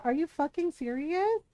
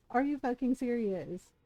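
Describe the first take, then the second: First: Higher, rising disbelief on serious; incredulous. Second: Softer, flat repeat of the question; deadpan disbelief. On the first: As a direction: throw the question up in outrage. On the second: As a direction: let it drop, quietly fed up. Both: Real, not acted. Ranting about a game's ending.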